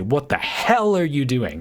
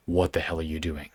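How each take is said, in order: First: High, loud, leaning hard on hell; overemphasized swear. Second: Low and soft, hell said flat and even; really calm. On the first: Demoing how kids lean into a swear word, overdone. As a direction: punch the word hell like a kid showing off. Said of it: "they really lean into the swear word". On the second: Demoing the calm, natural way to swear, quiet and even. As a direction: say it calmly, quietly menacing. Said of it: "if you say it in a really calm way". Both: Shown as a demonstration.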